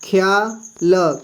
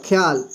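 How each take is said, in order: First: ख्याल slowly, syllable by syllable as khe-yaa-la; slow teacher demo of ख्याल; drawn-out ख्याल. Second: Said in the usual way. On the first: Shown as a demonstration. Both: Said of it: "जैसे".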